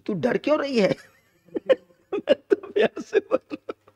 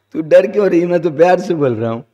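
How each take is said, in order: First: High, laughing imitation of a blunt husband; laughing mock husband. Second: Louder, blunt UP-style mock husband; rough rustic husband. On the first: A light, laughing take on the husband telling his wife he speaks with love. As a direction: giggle through the blunt husband's line. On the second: Rough husband tells his frightened wife he speaks with love, louder and blunt. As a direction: bark it out as if kindly, but rough. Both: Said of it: "ऐसी ठेठ भाषा में बोलता है".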